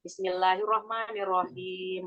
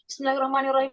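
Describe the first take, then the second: First: It is recited slowly and carefully. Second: It is recited quickly and sloppily. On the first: "apa yang lambannya" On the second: "Enggak gini"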